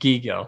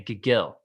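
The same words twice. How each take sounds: First: The stress is on the first syllable. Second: The stress is on the second syllable. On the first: The speaker calls it right. "so now it's on the first" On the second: The speaker calls it wrong. "I'm gonna put emphasis on the second part again"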